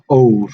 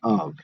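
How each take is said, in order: First: The vowel is a long O sound. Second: The vowel is a short uh sound. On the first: The speaker calls it wrong. "It's not ove" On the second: The speaker calls it right. "a short O would be like uh, in the word of"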